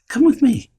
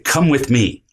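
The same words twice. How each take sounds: First: It is said in a calm, gentle tone. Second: It is said in a harsh, intimidating tone.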